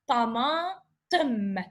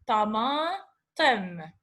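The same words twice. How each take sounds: First: Tamatim very slow, each short vowel clear; slow Arabic reading. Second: Tamatim very slow, ending in tamatem; slow Arabic reading. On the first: Teacher reads the word for the class: very slow tamatim. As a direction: stretch tamatim syllable by syllable. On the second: Teacher repeats the word for students: very slow tamatim. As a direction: drag out tamatim once more. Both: Shown as a demonstration. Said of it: "Now short sound".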